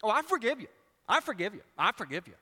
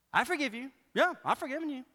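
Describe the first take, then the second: First: Louder, higher I forgive you said through the teeth; mock insincere forgiveness; grudging forgiveness. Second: Higher, mock sulky I forgive you; pouty sarcastic forgiveness; grudging forgiveness. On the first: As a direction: repeat I forgive you, not meaning it. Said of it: "we do that with forgiveness". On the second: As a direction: say I forgive you like you are still mad. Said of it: "when we're mad".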